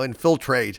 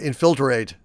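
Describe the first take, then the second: First: The word is said with its usual syllables. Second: The word is said with an extra syllable. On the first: It sounds lazy. The speaker calls it wrong. "Just seems like lazy" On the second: It sounds more elaborate. The speaker calls it right. "it seems natural to me"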